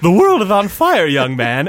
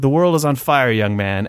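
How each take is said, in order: First: It is spoken in a put-on cartoon character voice. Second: It is read in the speaker's normal voice.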